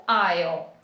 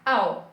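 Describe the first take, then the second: First: "I'll" with the full "eye" sound before the L; full pronunciation. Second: "I'll" reduced to a short "all"-like sound; reduced pronunciation. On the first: Teacher giving the grammatically correct form, fully pronounced "I'll". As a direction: articulate "I'll" completely, as "eye-ul". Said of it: "O gramaticalmente correto é o". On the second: Teacher showing learners how natives reduce it, reduced "I'll". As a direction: say "I'll" as in fast everyday speech, without the full "eye" glide. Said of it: "falem muito rápido e vai ficar". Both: Shown as a demonstration.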